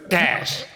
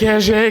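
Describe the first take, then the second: First: The word is one syllable, with no final vowel. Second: The word is two syllables, ending in an 'ay' sound. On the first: "It's cash" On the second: "I pronounce it cachet because it has an E"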